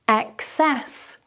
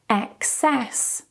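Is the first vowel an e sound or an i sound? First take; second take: e sound; e sound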